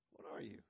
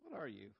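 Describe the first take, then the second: First: Repeated question whispered, softer. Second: Said in the usual way. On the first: Shown as a demonstration. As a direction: whisper the question back, teasing.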